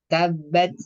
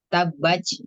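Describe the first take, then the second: First: The final t is released with a light, moderate breath. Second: The final t is released with heavy, ch-like breath. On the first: The speaker calls it right. "tapi tabat tabat gitu" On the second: The speaker calls it wrong. "jadi bukan ta tapi ca"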